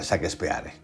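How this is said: The name is read out with Spanish sounds. "voy a decir en español, como se pronuncia"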